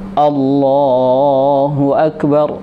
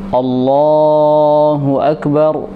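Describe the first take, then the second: First: The lips are rounded, giving an O sound. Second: The lips are rounded, giving an O sound.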